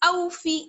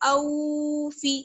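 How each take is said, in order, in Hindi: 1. पहला स्वर छोटा और तेज़ है। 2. पहला स्वर खिंचा हुआ लंबा है। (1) "जल्दी पढ़ेंगे" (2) "खींचना नहीं है, ऐसे नहीं पढ़ेंगे"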